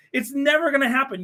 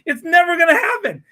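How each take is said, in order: First: Said in the usual way. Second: Louder, laughing through "never gonna happen"; laughing dismissal. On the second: Real, not acted. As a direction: laugh it off loudly.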